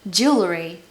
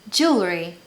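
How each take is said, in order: No difference in how they are said.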